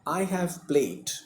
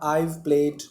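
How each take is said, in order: First: The word have is said in full. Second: The word have is clipped into I've.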